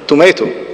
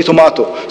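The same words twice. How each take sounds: First: "tomato" with an AY in the middle, to-MAY-to; American pronunciation. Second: "tomato" with a long AH in the middle, to-MAH-to; British pronunciation. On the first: Lecturer showing the audience one variant, "tomato" as to-MAY-to. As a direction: say "tomato" the American way, rhyming with potato. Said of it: "spell it in two different ways". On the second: Lecturer offering the audience the other variant, "tomato" as to-MAH-to. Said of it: "Or it could be". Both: Shown as a demonstration.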